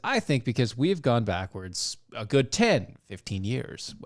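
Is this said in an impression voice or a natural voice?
natural. It is said in the speaker's ordinary voice. "I'm not going to continue with the voice"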